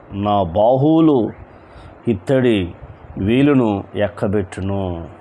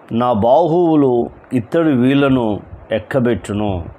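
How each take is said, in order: First: నా బాహువులు, ఇత్తడి, వీలును ఎక్కబెట్టును each said slowly with pauses between; deliberate slow repeat of the verse; slow, word by word. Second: Said in the usual way. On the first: Shown as a demonstration. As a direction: spell it out phrase by phrase. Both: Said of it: "verse repeated word by word".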